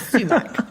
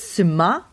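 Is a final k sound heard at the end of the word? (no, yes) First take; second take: yes; no. First: It ends with a k sound, stress first. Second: It ends without a k sound, stress second. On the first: The speaker calls it wrong. "no more are we going to talk about sumac" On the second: The speaker calls it right. "the emphasis on the second syllable, and you're not pronouncing the C"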